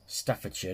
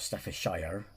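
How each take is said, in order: First: The ending is reduced, like 'sher'. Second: The ending is said fully, like 'shire'. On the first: The speaker calls it right. "Staffordshire, not Staffordshire" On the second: The speaker calls it wrong. "not Staffordshire"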